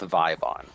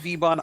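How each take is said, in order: First: The first syllable is said as 'vie'. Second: The first syllable is not said as 'vie'. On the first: The speaker calls it wrong. "I would go with Vibon. I think V Y in my mind is always gonna be a Vi" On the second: The speaker calls it right. "I didn't know that it was Vbon"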